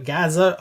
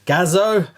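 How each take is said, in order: First: Gazoo said as "GAZ-uh", ending swallowed; fumbled pronunciation. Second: Gazoo said as "GAZ-oh", full final vowel; careful second attempt. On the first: Host unsure of a car name, fumbled pronunciation. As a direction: stumble on Gazoo, weakening the end to "uh". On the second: Host retrying a car name, careful pronunciation. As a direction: sound out Gazoo with a clear "oh" ending. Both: Real, not acted. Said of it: "the way I pronounce stuff".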